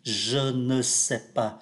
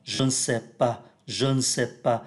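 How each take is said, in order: First: Said in the usual way. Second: "je ne sais pas" run together as "je n'sais pas"; "je ne sais pas" said quickly as "je n'sais pas"; fast reading, e dropped. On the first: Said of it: "Thay vì đọc là je ne sais pas". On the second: Shown as a demonstration. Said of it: "Khi đọc nhanh nó sẽ là".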